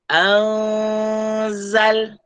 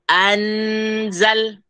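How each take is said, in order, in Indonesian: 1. Tidak ada n yang jelas; bunyi sengau meluncur ke z. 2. Bunyi n yang jelas terdengar sebelum z. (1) "Kita tidak sebut an, tidak" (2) "Itu bacaan yang salah"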